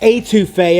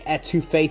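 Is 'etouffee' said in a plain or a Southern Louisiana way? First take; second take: Southern; plain. First: It is said the Southern Louisiana way. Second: It is said in a plain, non-Southern way. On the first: The speaker calls it right. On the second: The speaker calls it wrong.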